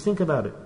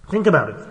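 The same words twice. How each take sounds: First: Soft, low murmur to make them reflect; hushed, inward prompt; quiet. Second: Said in the usual way. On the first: Shown as a demonstration.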